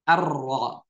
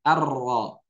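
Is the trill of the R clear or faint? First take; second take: clear; clear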